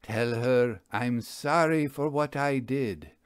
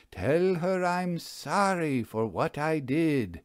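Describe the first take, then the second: First: Even-paced intoned Tell her I'm sorry; the magician first intones the ghost's message; intoning. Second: Slow solemn incantation of Tell her I'm sorry; the magician intones the ghost's message, slowly; slow intoning. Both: Acted. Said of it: "He intoned".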